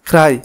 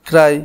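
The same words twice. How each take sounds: No difference in how they are said.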